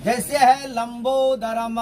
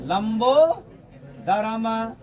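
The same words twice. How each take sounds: First: Said in the usual way. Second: लंबोदरम stretched very slowly, each syllable held; slow drawn-out example. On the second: Shown as a demonstration. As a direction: draw out लंबोदरम for the class. (लंबोदरम को बहुत धीमे खींचकर बोलें) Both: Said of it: "ध्यान देंगे".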